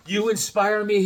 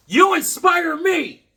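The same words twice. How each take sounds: First: Said in the usual way. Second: High, loud and slow; excited outburst. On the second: Real, not acted. Thanking the kids, shouted high and slow with joy. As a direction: belt it out with delight. Repeats the kid's card line.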